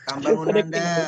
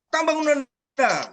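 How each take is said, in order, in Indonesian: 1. Diucapkan lemas, terdengar lapar dan lemah. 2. Diucapkan dengan tegas dan mantap. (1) "Bukan begitu. Itu lapar itu" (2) "Nah, tegas"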